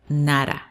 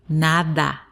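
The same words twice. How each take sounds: First: The word is rushed and the d is swallowed. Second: The word is unhurried and the d is clear. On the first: The speaker calls it wrong. "you might tend to go over it really fast so that it might at the end sound nada" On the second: The speaker calls it right. "Take your time to pronounce it"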